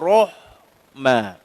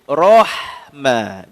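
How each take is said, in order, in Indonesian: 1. Huruf h adalah bunyi yang ringan, biasa, dan berhembus. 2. Huruf h adalah bunyi tenggorokan yang keras dan dalam. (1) "Jangan Rahma" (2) "Jadi Rahma"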